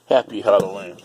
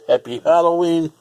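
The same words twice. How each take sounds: First: Said in the usual way. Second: Higher, louder cheer; cheerful greeting. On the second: Shown as a demonstration. Vlogger greeting viewers for Halloween, upbeat and loud. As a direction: call it out festively.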